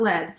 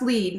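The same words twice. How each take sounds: First: The vowel is short, rhyming with 'red'. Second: The vowel is long, rhyming with 'need'. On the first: The speaker calls it wrong. "not lead" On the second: The speaker calls it right. "it is pronounced lead"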